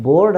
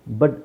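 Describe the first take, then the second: First: ಬೋರ್ಡ್ with a full long o; wrong pronunciation. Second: ಬಡ್ with a short weak vowel; correct pronunciation. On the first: Teacher showing what we don't say, wrong pronunciation. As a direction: sound ಬೋರ್ಡ್ out as board. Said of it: "ಅಂತ ಹೇಳಲ್ಲ". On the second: Teacher showing what we say, correct pronunciation. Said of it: "ಅಂತ ಹೇಳ್ತೀವಿ". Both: Shown as a demonstration.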